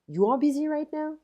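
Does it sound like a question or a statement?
question. It is said with question intonation. The speaker is asking something. "If I'm changing the intonation, you know, I have a question"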